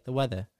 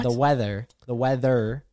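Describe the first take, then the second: First: "weather" ending in a soft "uh", no R; British-style "weatha", mouth moving less; British pronunciation. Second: Weather ending in a clear R; American "weather", R pronounced; American pronunciation. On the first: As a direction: drop the final R of "weather". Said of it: "they just say". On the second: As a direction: say "weather" with the final "er" fully sounded. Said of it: "if we say". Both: Shown as a demonstration.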